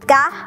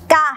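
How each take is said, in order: First: The syllable has a high tone. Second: The syllable has a falling tone. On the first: "มีรูปวรรณยุกต์ตรีมีเสียงวรรณยุกต์ตรี" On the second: "มีรูปวรรณยุกต์โทมีเสียงวรรณยุกต์โท"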